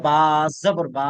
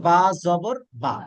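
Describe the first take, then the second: First: Over-long vowel on the closing বা; wrongly stretched vowel. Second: Final বা said short, not dragged; short vowel. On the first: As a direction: drag out the final বা into a long "baa". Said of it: "এখন কেউ যদি বলে". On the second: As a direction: spell out বা জবর বা with a quick last vowel. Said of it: "এইটার উচ্চারণ করেছি". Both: Shown as a demonstration.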